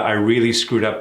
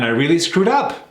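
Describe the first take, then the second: First: It is said in a sorry, regretful tone. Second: It is said in a happy, upbeat tone. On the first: The speaker admits a mistake and regrets it. The speaker calls it right. "Again, negative, screwed up" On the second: The speaker seems pleased about doing badly. The speaker calls it wrong. "Are you happy about doing a bad job?"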